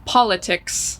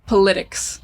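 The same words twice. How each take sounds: First: "politics" with stressed AH first; first syllable stressed. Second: "politics" stressed on second syllable; students' wrong stress. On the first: Teacher modelling common word, "politics" stressed PAH-luh-tics. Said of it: "very commonly mispronounced word". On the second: Teacher imitating students' mistake, "politics" as puh-LIT-ics. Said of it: "students will say". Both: Shown as a demonstration.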